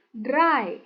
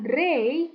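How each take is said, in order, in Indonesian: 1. Vokalnya berbunyi seperti eye. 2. Vokalnya berbunyi seperti ay. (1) "E I dibaca A I" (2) "Bukan dray"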